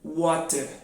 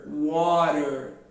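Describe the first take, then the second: First: The t is a clear, crisp t sound. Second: The t is a quick flap, like d. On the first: "eles vão fazer o som de T, tá? Então eles vão falar water" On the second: "o americano transforma esse T em um R, então fala water"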